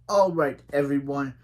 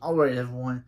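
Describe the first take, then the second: First: It is said in a put-on British accent. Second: It is said in the speaker's ordinary accent.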